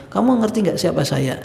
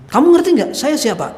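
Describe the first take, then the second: First: Said in the usual way. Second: Higher, louder haughty challenge; mocking arrogance. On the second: Arrogant official scoffing at his adviser, loud and haughty. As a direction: demand to know if they know who you are. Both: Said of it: "dia nanya dengan ngece gitu".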